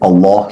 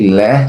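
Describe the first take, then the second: First: The L sound is heavy and full. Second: The L sound is light and thin. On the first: The lam is preceded by fatha or dhamma. "the letter lam here is heavy" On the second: The lam is preceded by kasra. "the letter lam in the word Allah here is light"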